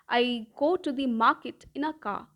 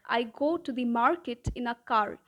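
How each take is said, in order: First: The R sounds in market and car are dropped. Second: The R sounds in market and car are pronounced. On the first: "in British English would sound like ... the R sound is completely eliminated" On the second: "a sentence in American English would sound like ... the R in market and car is more enunciated"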